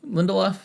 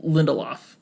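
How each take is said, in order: First: "Lindelof?" asked as a question, pitched higher; tentative query on the name "Lindelof?"; unsure, questioning. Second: Said in the usual way. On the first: Real, not acted. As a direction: say "Lindelof?" higher, as if checking the pronunciation. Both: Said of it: "I don't know how to pronounce his name".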